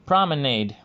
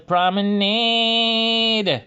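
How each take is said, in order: First: Said in the usual way. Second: "Promenade" drawn out slowly, pitched higher, louder, in Bugs Bunny's odd dialect. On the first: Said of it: "lyrics that he uses is". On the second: Retold or imitated. Imitating Bugs Bunny's cartoon lyric in his unusual dialect, higher and slower. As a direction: stretch "Promenade" long and high like the cartoon rabbit singing. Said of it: "that, uh, unusual, uh, accent or dialect".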